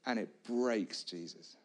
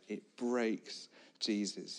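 First: Said in the usual way. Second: "breaks" leaned on, the whole line drawn out slowly; slow down and weigh the word "breaks"; stress on breaks, slowed. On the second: Shown as a demonstration. Preacher repeating the point, slow with "breaks" stressed.

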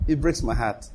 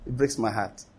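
First: Said in the usual way. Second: Much softer, trailing off into near silence; soft heartbroken plea. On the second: Acted. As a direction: let the repeat fade to a hurt hush. God's plea repeated, fading away.

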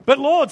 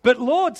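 First: "But Lord" cried out louder; louder protest. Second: Said in the usual way. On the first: A narrator's reading. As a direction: let Martha's protest burst out. Martha protests, reread stronger.

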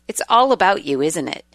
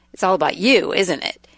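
First: "all" carries the accusation; stress on ALL. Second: "you" lifted and pointed; stress on YOU. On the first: Wife reading out things never to say to a husband, stress on "all". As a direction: lean on "all", then drop away on "isn't it". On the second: Wife repeating an accusation never to say to a husband, stress on "you". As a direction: punch "you", then drop away on "isn't it". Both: Acted.

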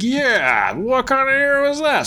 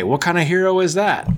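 First: Hammed-up indignation, pitch soaring; mock-indignant Odin. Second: Raised pitch, needling question; mock goading. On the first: Odin echoing Loki's complaint about Thor, hammed-up outrage. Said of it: "Odin's like". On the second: Loki goading Odin about his son, mock indignant. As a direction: egg him on, play-acted. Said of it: "he's whispering in Odin's ear".

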